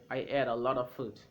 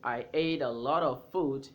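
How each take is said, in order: First: 'A lot of' is blended into 'a lotta'. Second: Every sound of 'a lot of' is said fully. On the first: "you can say" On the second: "instead of saying"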